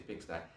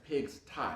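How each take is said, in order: First: The name is said quickly as one word. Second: The name is said slowly as two words.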